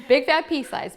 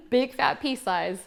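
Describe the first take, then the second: First: "Big fat pea size." punched louder and higher, stress on "fat"; emphatic repeat. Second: "Big fat pea size." drawn out slowly, each word spaced; slow, deliberate instruction. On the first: Repeating the dose to party guests, loud emphatic stress on fat. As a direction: hammer the amount home, loud and bright. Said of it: "repeats the dose with emphasis". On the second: Demonstrating a product to party guests, slow careful instruction. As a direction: spell out the amount slowly so it sticks. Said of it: "shows the dose to the audience". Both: Shown as a demonstration.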